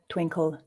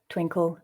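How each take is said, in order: Both takes have the same delivery.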